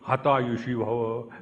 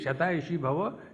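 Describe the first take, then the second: First: The first word begins with an h sound. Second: The first word begins with an s sound.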